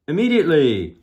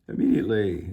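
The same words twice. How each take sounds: First: High, loud command falling off at the end; bullhorn shout. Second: Said in the usual way. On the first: A narrator's reading. Officer demanding the car stop, bullhorn shout. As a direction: holler it as an urgent order. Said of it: "shouted into his bullhorn".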